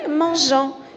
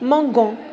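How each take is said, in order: First: The g is soft, like the s in measure. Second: The g is hard, like the g in go. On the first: The speaker calls it right. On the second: The speaker calls it wrong.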